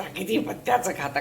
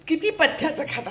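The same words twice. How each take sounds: First: The echo of "किती पथ्याचं खाता" said low and soft; quiet. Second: Said in the usual way. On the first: Real, not acted. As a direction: repeat "किती पथ्याचं खाता" lower and much softer.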